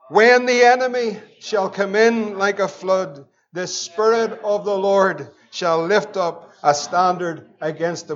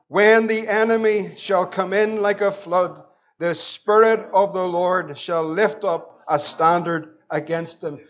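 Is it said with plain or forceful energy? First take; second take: forceful; plain. First: It is said forcefully, with conviction. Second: It is said in a plain reading voice.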